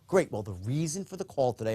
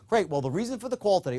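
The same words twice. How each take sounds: First: It is said with the tone slightly lowered. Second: It is said in an ordinary, neutral tone. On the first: The reason sounds secret, scarce and urgent. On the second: It is a routine reason for calling.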